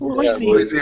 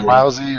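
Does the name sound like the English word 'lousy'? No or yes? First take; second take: no; yes. First: The name does not sound like 'lousy'. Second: The name sounds like the word 'lousy'. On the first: "Or was it was it Loisy?" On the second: "she said Alfred Lousy"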